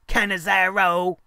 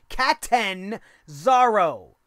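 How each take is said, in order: First: The name drops the 'tan' syllable sound. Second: The name keeps the 'tan' syllable clearly. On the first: The speaker calls it wrong. "not the nine thousand different fucking ways you wanted to mince, mispronounce that girl's name" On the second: The speaker calls it right. "Catanzaro, Cole, not Canizaro"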